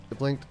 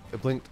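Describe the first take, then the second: No difference in how they are said.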